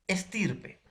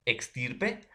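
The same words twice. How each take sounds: First: "estirpe" con una simple ese, sin sonido k; pronunciación con ese. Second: "extirpe" con la equis marcada como "ks"; pronunciación con equis. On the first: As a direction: di "estirpe" empezando por "es-". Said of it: "con X y el otro con S". ("estirpe" pronunciado con ese limpia, "es-") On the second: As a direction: di "extirpe" haciendo oír la k antes de la s. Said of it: "clasificación de paronimia por la pronunciación". ("extirpe" pronunciado claramente con equis, "eks-") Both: Shown as a demonstration.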